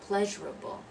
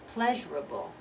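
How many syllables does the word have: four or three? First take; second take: three; three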